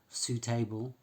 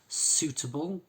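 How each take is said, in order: First: The ending is said fully like 'table'. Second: The ending is reduced with a weak vowel. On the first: The speaker calls it wrong. "We don't say suitable" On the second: The speaker calls it right. "we don't pronounce them like table"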